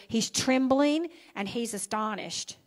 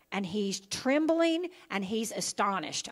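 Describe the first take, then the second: First: Trembling and astonished pressed again, a touch firmer; stress repeated. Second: Trembling and astonished leaned on lightly; first mild pass landing on trembling; stress on trembling. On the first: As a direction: drive home trembling and astonished. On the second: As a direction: set up the two words trembling and astonished. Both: Shown as a demonstration. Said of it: "I want you to remember those two words".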